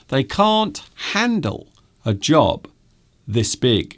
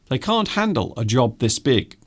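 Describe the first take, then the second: First: It is spoken at a slow, careful pace. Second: It is spoken at a fast, quick pace.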